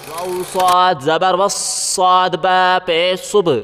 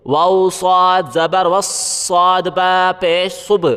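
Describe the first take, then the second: No difference in how they are said.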